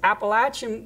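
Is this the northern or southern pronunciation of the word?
southern. It is said the southern regional way. The speaker is from the south. "It's Appalachian when you're in the south"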